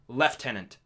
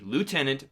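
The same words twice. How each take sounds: First: It is pronounced the British way, unlike spelling. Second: It is pronounced the way it is spelled. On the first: "but they pronounce it" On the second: "it's still spelled L I E U T E N A N T"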